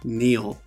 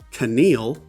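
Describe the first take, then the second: First: No K sound is heard at the start. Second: A K sound is heard at the start. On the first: The speaker calls it right. "it's kneel. The K is silent" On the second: The speaker calls it wrong. "this isn't Keneal"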